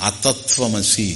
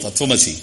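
First: అతత్వమసి with an added leading "a"; drawn-out reading. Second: Said in the usual way. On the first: Shown as a demonstration. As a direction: read అతత్వమసి softly, opening on a separate "a". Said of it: "అని లాగారు వేదంలో". (అతత్వమసి ముందు 'అ' చేర్చి మెల్లగా) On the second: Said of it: "తత్వమసి అనేది".

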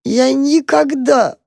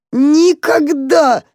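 First: Slow, high, broken sob on никогда; sobbing. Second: Никогда stretched very slow and higher, breaking into a wail; mole's grief building to a wail; louder sobbing. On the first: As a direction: drag the word out through a sob. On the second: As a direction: let the sob swell on the repeat. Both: A narrator's reading. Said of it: "всхлипывал крот".

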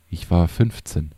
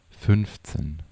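First: Said in the usual way. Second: Slowly repeated. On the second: A narrator's reading. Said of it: "wiederholte Tekas langsam".

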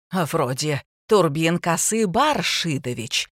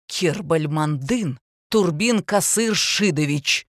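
First: Slow, pointed "Касы Баршидович"; smug, mock-careful "Баршидович"; gloating correction. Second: Slow, pointed full name; indignant precision; flaring correction. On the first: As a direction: correct him with sly glee. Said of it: "злорадно поправила Ермакова". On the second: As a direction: flare up and enunciate every syllable. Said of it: "вспыхнул учитель". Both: A narrator's reading.

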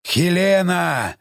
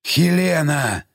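First: Long drawn-out monster call; slow, booming-style call without extra volume; thunderous monster rumble. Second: Drawn-out, hushed creature voice; restrained, rumbling plea; subdued monster call. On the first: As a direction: stretch the name like a rumbling giant. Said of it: "его громоподобное урчание". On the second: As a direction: call the name as a quieted giant. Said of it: "повторил ... Юзеф уже тише". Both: A narrator's reading.

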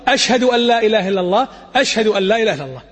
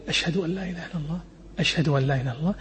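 First: Raised voice. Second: Low, soft murmur of the shahada; quiet undertone. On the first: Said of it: "ثم يرفع". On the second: Teaching the muezzin's hushed first shahada, very soft. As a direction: drop to a hushed voice for the first pair. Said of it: "بصوت خافت". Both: Shown as a demonstration.

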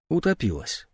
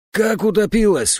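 First: Said in the usual way. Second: Higher, louder cry of horror; old man's horrified outcry. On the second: A narrator's reading. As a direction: cry it out in shock. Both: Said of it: "в ужасе вскричал".

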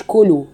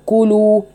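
First: كلوا said with a swallowed damma; wrong version. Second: كلوا with rounded lips and a full damma; correct demo. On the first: Teacher shows students the wrong way. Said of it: "ما تقوليش كلوا". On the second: Teacher shows the correct damma. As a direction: close the lips firmly on كلوا. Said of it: "ما كان ضم إلا لضم الشفتين". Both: Shown as a demonstration.

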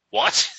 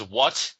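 First: Jumps much higher on the second what; squeaky repeat. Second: Said in the usual way. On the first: Retold or imitated. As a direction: repeat it way up high. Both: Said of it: "the thug says".

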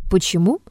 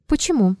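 First: "Почему?" echoed with a rising end; "Почему?" as a questioning repeat, pitch climbing at the end. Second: Short, falling, faintly amused why; understated smirking question; wry question. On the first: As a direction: throw "Почему?" back, lifting the last syllable. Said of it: "переспросил Остров". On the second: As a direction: ask it coolly, with a slight smirk. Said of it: "спросил Триродов, усмехаясь". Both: A narrator's reading.

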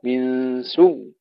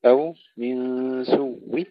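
First: سوء with a stilled doubled واو at the stop; stop with sukun. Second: سوء with a faint trace of the kasra at the stop; stop with rawm. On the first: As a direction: stop on سوء with no vowel, slowly. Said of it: "إما بالسكون أو بالروم". (الوقف بالسكون على سوء) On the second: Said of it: "أو بالروم". (الوقف بالروم على سوء) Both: Shown as a demonstration.

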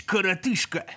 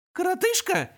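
First: Gruff demon insult; demon snarl. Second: Much higher, squeaky imp mimicry; squeak. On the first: Acted. Demon snarling коротышка. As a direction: growl коротышка. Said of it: "Номер первый отступил". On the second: Imp squeaking the insult back at demon. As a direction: squeak the word back mockingly. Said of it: "пропищал он".

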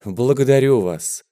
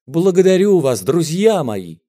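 First: Said in the usual way. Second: Higher, louder благодарю вас; emotional thanks to the crowd; touched thanks. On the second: A narrator's reading. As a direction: swell with gratitude on благодарю вас. Moved singer repeats thanks.

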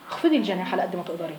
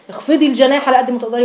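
First: Much softer, gently pleading; soft gentle counsel; soft tender advice. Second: Said in the usual way. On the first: Shown as a demonstration. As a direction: murmur it like a kind aside. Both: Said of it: "repeated advice".

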